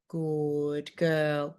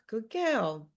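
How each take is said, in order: First: It is said in a stern, warning tone. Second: It is said in a warm, encouraging tone. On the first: The dog is heading in the wrong direction. "Your non-terminal punishment marker is good girl" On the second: The dog is heading in the right direction. "our non-terminal reward marker is good girl"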